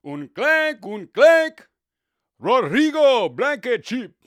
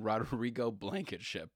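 First: Much higher and louder, name drawn out slowly; Spanish announcer. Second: Said in the usual way. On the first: Retold or imitated. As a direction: call the miss like a Spanish broadcaster. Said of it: "and you hear". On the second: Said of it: "That was the guy's name".

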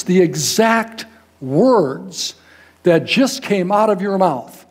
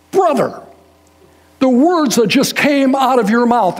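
First: "exact words" drawn out very slowly, each word leaned on; slow down and hit "exact" hard; emphasized words. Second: Raised, louder, urgent and slow; emphatic retelling. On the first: Reuben stressing to the preacher, very slow deliberate emphasis. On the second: Reuben telling the preacher, in a raised emphatic voice. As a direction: Reuben pressing his point hard. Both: Retold or imitated. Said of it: "he emphasizes".

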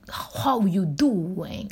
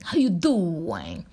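First: Slow, drawn-out New York accent. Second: Second slow New York accent take; a slow New York greeting, tried again. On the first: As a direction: lean into a New York greeting, very slowly. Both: Shown as a demonstration. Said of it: "I'm trying to get the New York accent".

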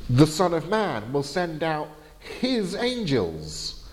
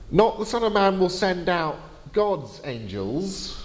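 First: Slow, with "his" leaned on as the key word; stress on his. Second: "Not" and "God's" set against the first version, higher; contrast on not. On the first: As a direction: lean on "his", as in his own angels. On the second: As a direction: stress "Not" and "God's" to correct it. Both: Shown as a demonstration.

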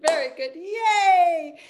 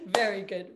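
First: High, slow, loud cheer. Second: Said in the usual way. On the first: Shown as a demonstration. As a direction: cheer the group on with a big yay. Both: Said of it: "cheer after exercise".

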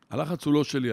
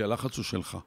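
First: לא hit firmly, falling to the end; stress on לא. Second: הלחץ opens, שלך lands on a soft fall; stress on שלך. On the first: Coach telling a stressed listener, stress on לא. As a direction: lean on the word לא. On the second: Coach telling a stressed listener, stress on שלך. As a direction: settle the weight on שלך. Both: Shown as a demonstration.

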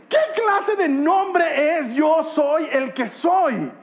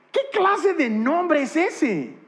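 First: Slow, high mock disbelief; drawn-out incredulous question. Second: Incredulous. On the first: Preacher to the congregation, mocking the strange name, drawn out and incredulous. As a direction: stretch out every word, baffled. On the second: Mocking the strange name. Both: Real, not acted.

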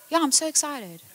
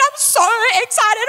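First: Deadpan. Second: High, squealing I'm so excited; gushing excited. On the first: Husband's deadpan reply. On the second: Wife gushing at husband about small news: high excited squeal. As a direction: gush it like a giddy kid. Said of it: "I'm a very excitable person". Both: Retold or imitated.

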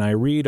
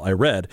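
First: "read" said like reed, long ee; "read" as present tense reed; misread word. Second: "read" said like red, short e; "read" as past tense red; corrected word. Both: Real, not acted. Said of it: "well, I read".

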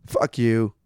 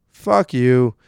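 First: Said in the usual way. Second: Second "Fuck you." punched out louder; louder repeated curse. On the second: Real, not acted. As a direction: spit the second one harder.

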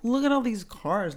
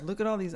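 First: A raised, louder gush of amazement; impressed friend. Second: Said in the usual way. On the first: Retold or imitated. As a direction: sell it like the cars prove everything. Friend gushing about surgeon's fancy cars.

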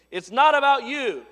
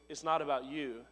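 First: Loud, high scolding; preachy chastisement. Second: Softer, gentle reminder; encouraging. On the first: Preacher scolding the congregation, loud and stern. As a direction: hammer it at them like a rebuke. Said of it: "I can preach at you like that". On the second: Pastor encouraging the congregation, gently. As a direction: say it kindly, not as a whip. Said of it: "I'm not whipping you with". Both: Shown as a demonstration.

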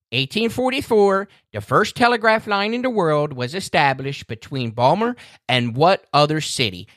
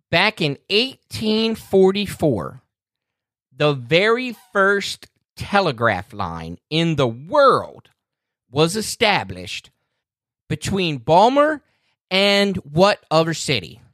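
First: Said in the usual way. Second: Slow, drawn-out quiz-host read with long pauses; dramatic quiz question. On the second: Shown as a demonstration. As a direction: lay out "eighteen forty-four" slowly like a game-show host. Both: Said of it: "All right".

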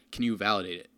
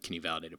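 First: CAN leaned on, a pointed request falling at the end; lightly mock a church asking to be approved; mock pushy ask. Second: Said in the usual way. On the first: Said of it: "they've sort of said". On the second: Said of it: "they haven't said".

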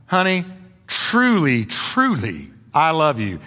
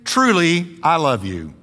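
First: "truly, truly" said as two separate, weighted beats; doubled TRULY. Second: Said in the usual way. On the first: Shown as a demonstration. Preacher showing men what to tell their wives, doubled emphatic "truly". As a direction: give each "truly" its own falling stress. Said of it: "But then try". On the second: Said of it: "You guys try this".

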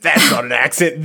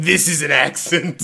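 First: Said in the usual way. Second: A light touch of Australian accent; lightly voiced Australian accent. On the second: Shown as a demonstration. Mocking a friend with a light Australian accent.

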